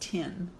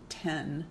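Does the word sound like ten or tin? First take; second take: tin; ten. First: The vowel is the closer i of tin. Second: The vowel is the open e of ten. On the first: This is how the other region says it. "they pronounce tin" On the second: This is how the speaker's own region says it. "Like ten to us"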